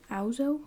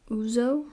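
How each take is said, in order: First: "Ouzo" said OW-zoh; "Ouzo" with an OW vowel, puzzled; pronunciation try. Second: "ouzo" said OO-zoh; "ouzo" with an OO vowel, asking; pronunciation try. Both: Shown as a demonstration. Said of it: "What the fuck?".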